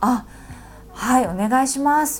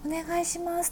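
First: It is said in a normal voice. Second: It is said in a very high voice.

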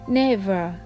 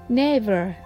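Both takes have the same delivery.

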